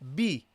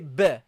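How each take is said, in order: First: The vowel is a clear, pure 'i' sound. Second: The vowel sounds halfway between 'i' and 'a'. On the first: The speaker calls it right. "so you say B, B" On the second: The speaker calls it wrong. "Don't say b, b. ... between a kasra and a fatha"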